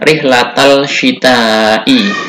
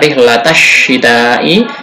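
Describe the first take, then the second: First: The L sound is clearly pronounced. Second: The L merges into a doubled sh sound. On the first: The speaker calls it wrong. "tidak dibaca" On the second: The speaker calls it right. "langsung dibaca"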